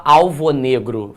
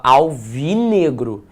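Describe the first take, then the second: First: "alvo negro" with the o of alvo kept; "alvo negro" unfused, o before negro; two separate words. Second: "alvinegro" with an i linking alv and negro; one word, i in place of o; fused with I. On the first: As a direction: say alvo in full, then negro. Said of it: "Você não fala". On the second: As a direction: say "alvinegro" as a single compound. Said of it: "entrou um I naquela história". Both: Shown as a demonstration.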